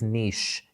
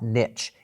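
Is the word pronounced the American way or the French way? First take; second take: French; American. First: The word is pronounced the French way. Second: The word is pronounced the American way. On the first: The speaker calls it right. "it is niche ... It is French" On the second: The speaker calls it wrong. "not niche"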